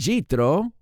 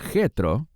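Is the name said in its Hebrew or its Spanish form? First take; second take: Hebrew; Spanish. First: The name is said in its Hebrew form. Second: The name is said in its Spanish form. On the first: "ese es su nombre en hebreo" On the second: "es posible que tu Biblia diga Jetro"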